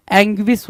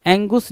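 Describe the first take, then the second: First: "एंग्विस" as ANG-gwis; corrected pronunciation. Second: "एंगुस" as two parts, ANG-gus; wrong pronunciation. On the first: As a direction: put a w-glide after the g in "एंग्विस". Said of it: "एंग्विस होता है". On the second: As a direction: end "एंगुस" on "gus", without any w. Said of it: "एंगुस नहीं होता है". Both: Shown as a demonstration.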